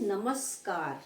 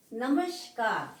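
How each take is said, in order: First: नमस्कार with a clean S before the K; correct pronunciation. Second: नमस्कार with SH for S, drawn out; wrong pronunciation. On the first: Teacher giving students the correct word, नमस्कार with a plain s. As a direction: say नमस्कार as "namas-kaar". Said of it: "क्या शब्द है". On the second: Teacher showing students the common error, नमस्कार said with a sh sound. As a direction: say नमस्कार slowly as "namashkar". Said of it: "नमस्कार शब्द नहीं है". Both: Shown as a demonstration.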